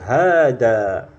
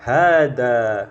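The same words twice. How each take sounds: First: The first vowel is held long. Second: The same.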